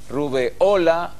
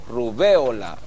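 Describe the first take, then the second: First: The stress falls on the syllable o. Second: The stress falls on the syllable be. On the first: "si es grave" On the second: "o si es esdrújula"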